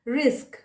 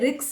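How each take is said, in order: First: The s sound comes before the k sound. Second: The k sound comes before the s sound. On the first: The speaker calls it right. "पहले स का उच्चारण आता है, बाद में क का उच्चारण आता है" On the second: The speaker calls it wrong. "कुछ लोग गलती से रिक्स बोल देते हैं, वो नहीं होगा"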